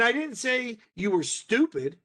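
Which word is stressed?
stupid. The word 'stupid' is stressed. Something worse than stupid was said. "emphasis being on those individual words"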